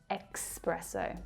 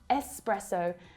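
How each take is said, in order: First: It begins with an 'ex' sound. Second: It begins with a plain 'es' sound. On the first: The speaker calls it wrong. "not espresso ... The letters S pronounced as X" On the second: The speaker calls it right. "It's espresso"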